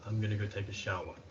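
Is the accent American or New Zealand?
New Zealand. It is said in a New Zealand accent.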